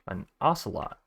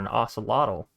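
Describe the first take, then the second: First: The word ends with a plain 'lot' sound. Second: The word ends with an added 'tl' sound. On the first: The speaker calls it right. "I've learned how to pronounce it now" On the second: The speaker calls it wrong. "I don't know what was wrong with me calling it"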